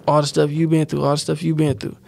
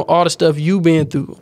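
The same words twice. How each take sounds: First: All the stuff you been through repeated, dropping softer each time; fading repetition. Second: Said in the usual way. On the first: Real, not acted.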